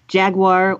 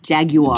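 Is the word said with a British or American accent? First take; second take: American; British. First: It is said with an American accent. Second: It is said with a British accent.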